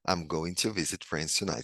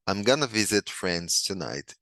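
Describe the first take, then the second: First: Going to is said in full, unreduced. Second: Going to is reduced to gonna.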